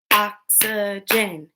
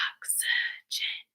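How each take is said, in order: First: Voiced oxygen in three slow beats; oxygen split into syllables. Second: Very soft, voiceless oxygen, syllable by syllable; whispered oxygen. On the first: Teacher stomping along with pupils, oxygen split in three. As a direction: separate every syllable of oxygen evenly. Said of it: "Break words into parts". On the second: Teacher asking pupils to whisper with her, whispered oxygen. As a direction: whisper oxygen in three separate beats. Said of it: "Whisper with me". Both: Shown as a demonstration.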